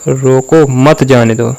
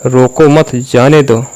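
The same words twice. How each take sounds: First: "रोको", then "मत जाने दो" run together; break before मत. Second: "रोको मत" joined, then falling "जाने दो"; pause after मत. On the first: Coach contrasting meanings for the viewer, break after "रोको". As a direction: set "रोको" apart to mean stop them. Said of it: "मैं रोक लो". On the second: Coach contrasting meanings for the viewer, pause after "मत". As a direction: break after "मत" to mean let go. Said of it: "मैं जाने दो". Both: Shown as a demonstration.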